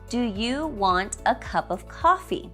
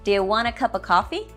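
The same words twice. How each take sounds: First: Each word is spoken separately and clearly. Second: The words run together into one stream. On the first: "Every word is separate and clear" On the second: "your American friend may say"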